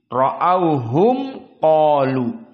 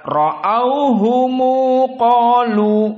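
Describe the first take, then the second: First: The m is closed, with no vowel after it. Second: The m is followed by a short u vowel. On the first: This follows the reading of the majority of reciters. "mim sakinah bagi qiraah Hafsan Asim atau jumhur" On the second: This follows the reading of Ibnu Katsir and Abu Ja'far. "mimnya silatul jama'. Dibaca ra'auhumu qalu"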